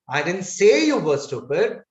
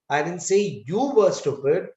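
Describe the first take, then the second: First: The word say carries the main stress. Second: The word you carries the main stress. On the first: "So I'm putting stress on the word say" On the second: "So now I'm putting stress on you"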